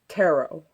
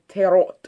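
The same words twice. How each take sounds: First: It is said in an American accent. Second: It is said in a German accent. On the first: "In America, where I live, the pronunciation is tarot" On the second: "I myself am half German, and on the occasion I find myself slipping a half-hearted tarot"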